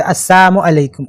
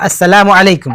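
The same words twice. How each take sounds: First: السلام said slowly as asamu, with no la; twisted salaam. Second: السلام with every syllable, as-sa-la-mu; clear salaam. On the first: Retold or imitated. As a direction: drag out السلام as as-samu, swallowing the la. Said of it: "ٹیڑھا کر کے بولتے تھے". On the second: Shown as a demonstration. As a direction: pronounce السلام fully and clearly, la included. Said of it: "بہت ہی clear کر رہا ہے".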